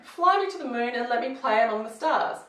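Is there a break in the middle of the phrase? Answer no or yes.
no. The phrase flows without any pause partway through. The speaker calls it right. "There's actually no break there"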